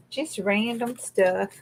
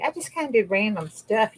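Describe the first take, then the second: First: Drawn out, each word weighed; slowly, "Just random stuff" leaned on; a playful slow echo of "random stuff"; slow emphatic repeat. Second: Said in the usual way. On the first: Shown as a demonstration.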